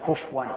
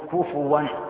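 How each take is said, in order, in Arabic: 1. لا توجد حركة بعد f. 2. تتبع f حركة u. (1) "كفوا تكون الفاء هذا خطأ" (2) "فلنقول كفوا هذا بالواو"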